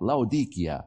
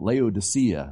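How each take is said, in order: First: The name is said with a Turkish pronunciation. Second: The name is said with an English pronunciation. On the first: This is how the locals say it. The speaker calls it right. "they still call it Laodicea" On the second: This is how English speakers usually say it. The speaker calls it wrong. "And we call it Laodicea"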